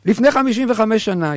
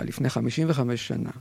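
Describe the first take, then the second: First: לפני חמישים וחמש שנה announced higher and louder; emphatic restart. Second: Said in the usual way. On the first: Shown as a demonstration. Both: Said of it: "repeated louder".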